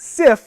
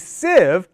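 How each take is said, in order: First: The word ends with a voiceless F sound. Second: The word ends with a voiced V sound. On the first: The speaker calls it wrong. "not sif" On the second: The speaker calls it right. "that word sieve has that V sound at the end"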